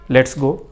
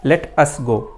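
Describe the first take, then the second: First: Let us is contracted into one syllable. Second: Let and us are said as separate words. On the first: The speaker calls it right. "आप भी अपने दोस्तों को कहते होंगे लेट्स go" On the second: The speaker calls it wrong. "ऐसे कोई नहीं कहता"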